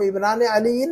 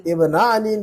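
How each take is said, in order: First: इब्नाने अलीयिन with the "ne" sounded; the disallowed इब्नाने अलीयिन, noon pronounced; form with noon kept. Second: इब्ना अलीयिन without the "ne"; noon dropped. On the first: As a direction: say इब्नाने अलीयिन keeping the n syllable. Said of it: "नहीं कह सकते". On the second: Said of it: "कहना होगा हमें". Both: Shown as a demonstration.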